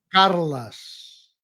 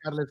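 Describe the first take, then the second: First: The second vowel sounds like an 'a'. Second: The second vowel sounds like an 'e'. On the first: This is the Catalan pronunciation. "la pronunciación en catalán correcta es Carlas, como si fuera una A en vez de una E" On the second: This is how most people say it. "todo el mundo es Carles"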